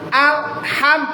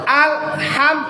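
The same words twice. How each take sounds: No difference in how they are said.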